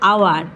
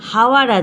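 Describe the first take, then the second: First: The word begins with a vowel sound. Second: The word begins with an h sound. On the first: "আমি উচ্চারণ করলাম আওয়ার" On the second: "এখানে হাওয়ার আছে"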